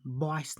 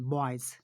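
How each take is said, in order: First: Put-on बॉयज ending in a voiceless S, like "boyce"; final S sound. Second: बॉयज ending in a voiced, buzzing Z; final Z sound. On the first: Teacher showing pupils how not to read it, बॉयज with final S. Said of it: "इनको हम बॉयज नहीं पढ़ते हैं". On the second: Teacher showing pupils how to read it, बॉयज with final Z. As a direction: say बॉयज with Z at the end, not S. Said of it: "हम पढ़ते हैं बॉयज". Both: Shown as a demonstration.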